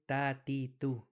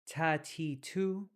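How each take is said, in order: First: The t is released lightly with little air. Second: The t is released with a strong puff of air. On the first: The speaker calls it right. "We actually want to say" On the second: The speaker calls it wrong. "we don't want to say"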